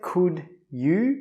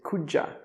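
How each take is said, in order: First: The second word is a full 'you'. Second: The second word is reduced to 'ya'. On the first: "We don't say could you" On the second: "we say could ya"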